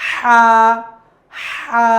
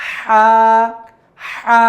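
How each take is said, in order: Both takes have the same delivery.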